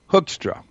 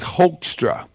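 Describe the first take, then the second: First: The first syllable does not sound like hoax. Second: The first syllable sounds like the word hoax. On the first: The speaker calls it right. "But it's pronounced Hoekstra" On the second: The speaker calls it wrong. "like hoax, H-O-A-X-tra"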